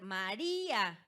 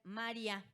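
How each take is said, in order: First: The stressed i forms its own syllable before a. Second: The weak i glides into a in one syllable. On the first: The speaker calls it right. "en lugar de tener un hiato" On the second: The speaker calls it wrong. "vamos a tener un diptongo"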